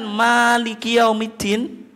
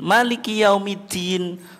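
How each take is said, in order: First: The vowel after the m is long. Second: The vowel after the m is short. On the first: "Kalau memnya dipanjangkan" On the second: "memnya tidak dipanjangkan"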